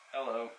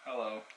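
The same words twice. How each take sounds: The two takes are said the same way.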